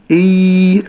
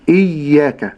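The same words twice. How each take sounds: First: إي drawn out with a long vowel; wrong lengthened hamza. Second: إياك with a short hamza vowel, no stretching; correct short hamza. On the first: Teacher imitates stretching the hamza vowel too long. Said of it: "لا أمد في الهمز". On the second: Teacher gives the correct short hamza in إياك. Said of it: "ولكن". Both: Shown as a demonstration.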